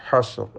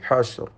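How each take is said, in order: The two takes are said the same way.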